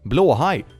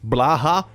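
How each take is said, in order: First: It is said with a Swedish pronunciation. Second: It is said in an anglicized, non-Swedish way. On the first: The speaker calls it right. "learn Swedish, people" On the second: The speaker calls it wrong. "they always pronounce it so weird"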